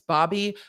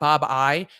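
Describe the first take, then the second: First: The name ends with an 'ee' sound. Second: The name ends with an 'eye' sound. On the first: The speaker calls it right. "but I realize it's Bobby" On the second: The speaker calls it wrong. "my brain wants to pronounce that Bob I"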